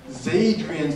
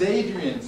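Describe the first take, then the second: First: The word starts with a linked z sound. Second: The word starts with a plain vowel sound. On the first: The speaker calls it right. "Zadrian's の発音になります" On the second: The speaker calls it wrong. "Adrian's じゃなくて"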